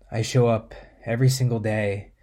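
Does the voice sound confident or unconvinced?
unconvinced. It sounds flat and unconvinced. The reader does not believe the words. The speaker calls it wrong. "One is disempowering"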